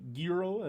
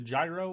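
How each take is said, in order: First: The word is said closer to the Greek sound. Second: The word is said in an anglicized way.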